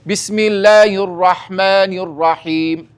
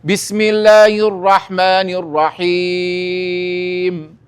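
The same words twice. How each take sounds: First: The final long vowel is held for two counts. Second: The final long vowel is held for four counts. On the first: "بە دووی دەخوێنمەوە" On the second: "بیکەمە چوار"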